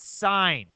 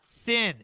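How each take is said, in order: First: The vowel is long, rhyming with 'line'. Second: The vowel is short, rhyming with 'win'. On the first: The speaker calls it right. "It's sign. Say sign" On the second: The speaker calls it wrong. "please don't say sin"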